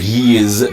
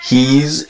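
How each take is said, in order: First: It is said as two syllables. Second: It is said as one syllable. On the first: The speaker calls it wrong. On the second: The speaker calls it right. "it's one syllable"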